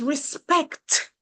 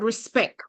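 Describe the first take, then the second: First: "respect" with a crisp final t; English pronunciation. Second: "respect" without its final t; Patois pronunciation. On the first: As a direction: finish "respect" on a clear k-t cluster. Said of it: "In English". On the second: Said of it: "In English, the word is". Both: Shown as a demonstration.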